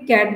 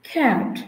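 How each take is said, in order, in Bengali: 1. প্রথম ব্যঞ্জনে শ্বাসের কোনো ফুঁ নেই। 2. প্রথম ব্যঞ্জনে শ্বাসের ফুঁ আছে। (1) "আমরা এটাকে ক্যাট বললো" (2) "কারেক্ট প্রোনাউন্সিয়েশনে ... এটাকে বলা হয় খ্যাট"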